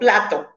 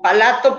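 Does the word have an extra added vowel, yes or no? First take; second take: no; yes. First: The word has no extra vowel added. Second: An extra vowel is added inside the word. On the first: The speaker calls it right. "por plato" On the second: The speaker calls it wrong. "O adiciones"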